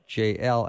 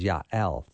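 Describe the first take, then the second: First: The name is said in an anglicized way. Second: The name is said the Hebrew way. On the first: The speaker calls it wrong. "The first one was JL" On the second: The speaker calls it right. "the proper Hebrew pronunciation is Yael"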